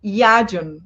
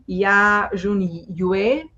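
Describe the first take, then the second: First: "Yajun" said as one falling word, "YAH-jun"; corrected name pronunciation. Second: "Ya Jun Yue" slowly sounded out as "yah zhun yweh", ending on a rise; tentative mispronunciation. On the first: Host echoing the presenter's correction: "Yajun" as "YAH-jun", settled and falling. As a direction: repeat "Yajun" back compactly, stress first, voice falling. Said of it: "Yes, yes, good". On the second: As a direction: attempt "Ya Jun Yue" in slow, separate pieces, family name last, questioning at the end. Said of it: "I'm gonna probably pronounce it wrong". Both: Real, not acted.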